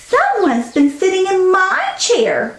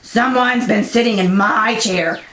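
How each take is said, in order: First: It is said in a medium, mild voice. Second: It is said in a deep, gruff voice.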